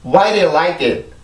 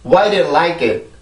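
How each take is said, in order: The two takes are said the same way.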